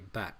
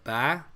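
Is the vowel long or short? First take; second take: short; long. First: The vowel is short. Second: The vowel is held long. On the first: The speaker calls it right. "It's just not going to be long" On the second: The speaker calls it wrong. "instead of ba"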